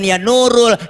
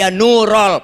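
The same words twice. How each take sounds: First: The word ends without an 'a' vowel. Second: The word ends with an 'a' vowel. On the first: The speaker calls it wrong. "jangan ya nurul" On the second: The speaker calls it right. "tapi ya nurul pakai fathah jadi nasob"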